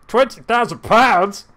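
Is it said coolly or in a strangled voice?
strangled. It is said in a tight, strangled voice.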